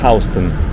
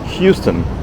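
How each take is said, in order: First: It uses the local New York pronunciation. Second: It sounds like the Texas city's name. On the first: The speaker is from the area. "everybody who's from here or who lived here for a while knows that it's Houston" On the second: The speaker is a visitor or newcomer. "because it's exactly how it's spelled, just like the city of Houston"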